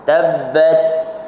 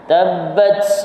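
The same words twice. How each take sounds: First: The final t ends in a light puff. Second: The final t ends in a very strong burst. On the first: The speaker calls it right. "Jadi ujung lidah kita melantun, tepuk dia sikit" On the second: The speaker calls it wrong. "Itu kuat sangat. Kuat sangat. Itu melampaui dah"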